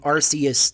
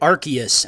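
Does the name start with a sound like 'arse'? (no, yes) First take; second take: yes; no. First: The first syllable sounds like 'arse'. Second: The first syllable does not sound like 'arse'. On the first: This is how the speaker has always said it. "I have been saying Arceus this whole time, which is wrong" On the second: This is how the official trailer says it. "in the trailer they pronounced it Arceus"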